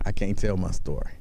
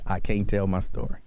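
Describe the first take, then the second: First: Low, dragged-out lament; a touch of a low, mournful mock. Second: Low mock whine; a lightly voiced mocking quote; mocking her line. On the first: Shown as a demonstration. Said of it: "it puts you in the mind".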